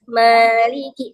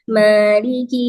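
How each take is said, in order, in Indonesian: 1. Vokal pertama terdengar jelas, dengan mulut terbuka. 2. Vokal pertama terdengar tertahan, dengan mulut hampir tertutup. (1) "ma-nya berarti membuka mulutnya aja" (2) "tapi mulutnya nggak dibuka atau bukanya sedikit, pasti suaranya beda"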